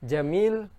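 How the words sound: The word begins with a j sound. This is the standard Arabic form. "huruf jim di Mesir dibaca dengan G"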